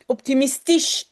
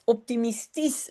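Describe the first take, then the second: First: The word ends with a ch sound. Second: The word ends with a plain s sound. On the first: The speaker calls it wrong. "qui prononcent le S C H à la fin comme ch" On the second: The speaker calls it right. "on prononce à la fin comme un S"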